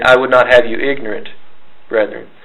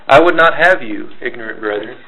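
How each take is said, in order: First: The pause comes after "ignorant". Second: The pause comes before "ignorant".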